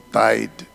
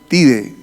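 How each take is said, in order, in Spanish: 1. Se dice con sonidos de estilo inglés. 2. Se dice con sonidos de estilo español. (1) "no Tide" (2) "el jabón Tide"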